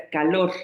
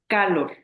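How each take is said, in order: First: Calor stressed on the last syllable LOR; stress on final syllable. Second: Calor wrongly stressed on CA; wrong first-syllable stress. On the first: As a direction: say ca-LOR, the weight on LOR. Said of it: "la sílaba tónica es lor". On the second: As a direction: say CA-lor, punching the first syllable. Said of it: "Si se pronuncia más fuerte K". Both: Shown as a demonstration.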